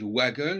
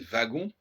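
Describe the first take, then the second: First: The word begins with a w sound. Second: The word begins with a v sound. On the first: Some other speakers say it this way. "les certains disent wagon" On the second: This is how French speakers say it. "nous on dit wagon"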